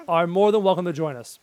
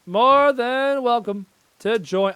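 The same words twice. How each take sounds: First: Said in the usual way. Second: High, loud, long-drawn British lady; British woman impression. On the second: Inviting the enemy to join, drawn-out British woman. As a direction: stretch it out as a mock British woman. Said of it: "talk like one of those British women".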